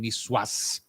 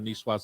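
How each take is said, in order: First: The final S sound is clearly pronounced. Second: The final S sound is left silent.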